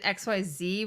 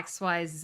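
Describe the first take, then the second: First: The last letter is pronounced zee. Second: The last letter is pronounced zed. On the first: This is how others say the alphabet. "Instead of" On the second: This is how Canadians say the alphabet. "we say"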